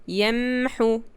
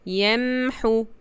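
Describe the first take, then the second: First: A brief pause follows the m sound. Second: A brief pause follows the m sound.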